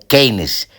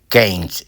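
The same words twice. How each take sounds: First: The name is pronounced with Spanish sounds. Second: The name is pronounced with English sounds. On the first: "pronunciación en castellano" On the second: "en inglés, pronunciación en inglés"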